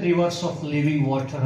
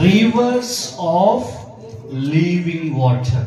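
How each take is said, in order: First: Said in the usual way. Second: Loud, slow proclamation in broken phrases; crying out. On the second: Acted. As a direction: proclaim it forcefully, pausing after "Rivers". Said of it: "Jesus stood and cried out". (ಜೋರಾಗಿ, ಬಿಡಿಸಿ ಸಾರಿ ಹೇಳುವುದು)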